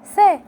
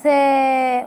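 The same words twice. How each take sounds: First: سا said short with a quick fatha; سا as a brief fatha; short vowel. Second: سا with the alif held long; drawn-out سا for the long vowel. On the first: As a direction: clip سا short. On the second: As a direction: stretch سا out. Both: Shown as a demonstration. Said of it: "لكن لما مديها بالألف".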